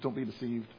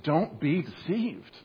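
First: It is said softly, as a gentle suggestion. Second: It is said forcefully, like an urgent shout. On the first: It is only a mild suggestion. The speaker calls it wrong. "This is not a subtle suggestion" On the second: It is an urgent warning. The speaker calls it right. "This is meant to be a strong wake-up call"

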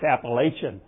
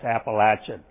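First: The word is said the Northern US way. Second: The word is said the Southern US way. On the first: "If you come from the North, it's Appalachian" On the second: "If you come from the South, it's Appalachian"

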